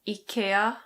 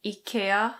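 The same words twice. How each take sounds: First: It is said with a Swedish pronunciation. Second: It is said with a Swedish pronunciation.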